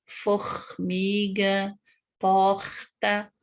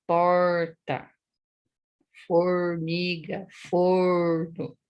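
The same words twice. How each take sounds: First: Rio de Janeiro throaty R in "Formiga, porta"; slow Rio-accented demo. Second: Paraná retroflex R, held long; slow, marked Paraná R; Paraná accent. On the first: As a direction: say the R breathy at the back of the throat, Rio style. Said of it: "no Rio de Janeiro". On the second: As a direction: curl the R like in Paraná: "porta, formiga, forno". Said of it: "Aqui no Paraná". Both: Shown as a demonstration.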